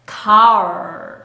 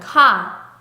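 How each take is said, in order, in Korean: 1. car는 R 소리로 끝나요. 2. car는 R 소리 없이 끝나요. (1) "R 소리까지 꼭 내주세요" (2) "한국말에서는 카, 카 R 소리가 하나도 안 들어가죠"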